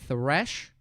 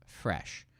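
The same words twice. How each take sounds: First: "thresh" very slowly, with a long TH; TH sound. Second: "fresh" very slowly, with a long F; F sound. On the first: Teacher showing the mouth position, "thresh" with exaggerated TH. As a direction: draw out the tongue TH that opens "thresh". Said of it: "So look at my mouth". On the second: Teacher showing the difference from thresh, "fresh" with exaggerated F. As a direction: draw out the F that opens "fresh". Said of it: "There's a difference". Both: Shown as a demonstration.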